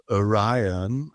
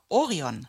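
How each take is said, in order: First: ORION said as oh-RYE-un, slowly; English pronunciation. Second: ORION said the German way, stressed OH at the start; German pronunciation. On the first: Showing how the singer pronounces it, "Orion" as English oh-RYE-un. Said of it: "er spricht es aus". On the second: Co-host reading out the title, "Orion" in German pronunciation, OH-ree-on. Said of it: "er, er spricht es aus". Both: Shown as a demonstration.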